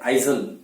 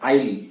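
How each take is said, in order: First: A z sound is heard in the middle. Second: No z sound is heard in the middle. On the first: The speaker calls it wrong. "ज्यादातर लोग इसको बोलते हैं आइजल" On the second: The speaker calls it right. "तो इसको बोलना है आइल"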